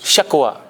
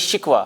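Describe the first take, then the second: First: The first vowel is an 'a' sound. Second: The first vowel is an 'i' sound. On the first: The speaker calls it right. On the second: The speaker calls it wrong. "हम कहते हैं शिकवा, हालांकि गलत है"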